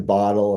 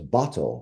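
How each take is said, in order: First: The T in the middle is soft, not crisp. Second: The T in the middle is crisp and clear. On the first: This is the speaker's casual everyday pronunciation. The speaker calls it wrong. "I would go back to bottle" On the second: This is the careful pronunciation with good diction. The speaker calls it right. "You got to say it with the T's, like good diction"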